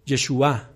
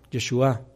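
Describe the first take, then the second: First: Said in the usual way. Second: Yeshua with the final A stressed, ye-shu-Á; stress on the last A. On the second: Shown as a demonstration. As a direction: lean on the closing A of Yeshua. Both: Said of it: "Vamos a darle el acento en la última A".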